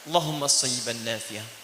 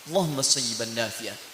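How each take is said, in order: First: It is said humbly, with strong pleading feeling. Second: It is said humbly, with strong pleading feeling.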